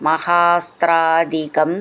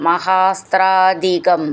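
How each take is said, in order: No difference in how they are said.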